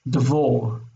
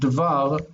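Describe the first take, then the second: First: The last syllable has a short oh vowel. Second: The last syllable has an ah vowel. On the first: The speaker calls it wrong. "We don't want devor, We don't want that short O" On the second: The speaker calls it right. "we want devar, we want an ah sound"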